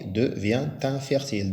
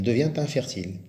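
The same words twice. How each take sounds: First: Devient infertile with the t linked: devien-t-infertile; with liaison. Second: Devient infertile linked: devien-t-infertile; with liaison. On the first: Teacher showing pupils the liaison, linking the t sound. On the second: Teacher repeating the liaison for pupils, linked t sound. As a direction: link the t into infertile again. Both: Shown as a demonstration. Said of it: "Avec la liaison, on dit".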